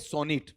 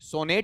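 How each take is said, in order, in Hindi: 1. दूसरा स्वर 'ih' जैसा बोला जाता है। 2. दूसरा स्वर 'eh' जैसा बोला जाता है। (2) "सोनेट नहीं होता है"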